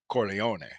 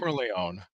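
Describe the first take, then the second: First: The name is said with an Italian pronunciation. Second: The name is said with an American pronunciation. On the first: The speaker calls it right. "It's Corleone" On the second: The speaker calls it wrong.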